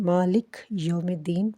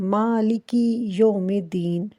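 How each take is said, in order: First: مالک with the final ee dropped; wrong recitation. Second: مالکی with a clear long ee at the end; correct recitation. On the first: Teacher showing the mistake, مالک said without its ending. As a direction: clip مالک short as maa-lik, then یوم الدین. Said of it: "جو کہ بالکل غلط ہے". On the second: Teacher reciting مالکی with its final ee for students. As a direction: say مالکی fully as maa-li-ki, then یوم الدین. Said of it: "مالکی یوم الدین پڑھنا چاہیے". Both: Shown as a demonstration.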